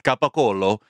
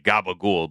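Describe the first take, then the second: First: It is said in full, with the final vowel. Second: It is clipped, with the final vowel dropped. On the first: This is the proper Italian name. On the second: This is how Americans say it.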